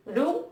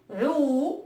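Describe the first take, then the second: First: "rou" with a short, clipped u; "rou" with a brief Arabic u; short vowel ru. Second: "rou" with a long, held u; "rou" drawn out, slow long u; long vowel ruu. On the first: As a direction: read "rou" as short damma, quick u. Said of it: "ad-damma, ça se lit". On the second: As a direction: stretch the u in "rou" as long waw, slowly. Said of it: "Et avec le waw, ça se lit". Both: Shown as a demonstration.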